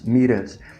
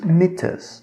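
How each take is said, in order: First: The T becomes a quick R-like tap. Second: The T is pronounced as a clear T. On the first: "Reparem que esse T virou um Rzinho... Isso no inglês americano" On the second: "No inglês britânico, eles realmente pronunciam T"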